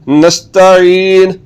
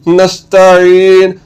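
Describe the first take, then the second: The two takes are said the same way.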